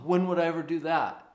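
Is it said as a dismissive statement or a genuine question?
dismissive statement. It sounds like a dismissive statement, not asking. The speaker assumes there is no possible time. The speaker calls it wrong. "that's not a question"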